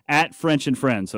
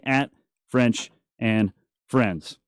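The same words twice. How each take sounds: First: Said in the usual way. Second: "At French and Friends" said slowly, word by word; slow repeat. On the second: Shown as a demonstration. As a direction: drag it out so they catch it.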